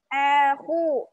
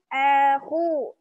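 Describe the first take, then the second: Both takes have the same delivery.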